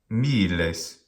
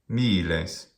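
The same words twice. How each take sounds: The two takes are said the same way.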